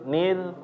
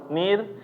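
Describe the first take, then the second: First: The r is pronounced heavy and thick. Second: The same.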